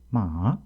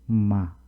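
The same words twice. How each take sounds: First: The pitch dips from mid, then rises slightly. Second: The pitch falls slowly from mid to low. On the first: "중간음에서 낮추는 높이는 것으로서" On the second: "중간음에서 바로 떨어뜨리면서 발음하는"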